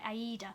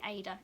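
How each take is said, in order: First: The word is said in its full, longer form. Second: The word is said in a short, clipped form. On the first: "that actually how you pronounce it. It's like Aida" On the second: "I say Ada. It, it's much quicker"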